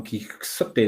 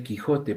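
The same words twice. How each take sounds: First: "Quijote" said with KS in place of J; "Quijote" with an X sound, drawn out; old spelling read literally. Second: Said in the usual way. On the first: Shown as a demonstration. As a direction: slowly sound out "Quijote" as "Quik-SO-te". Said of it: "no es que en ese entonces se pronunciase".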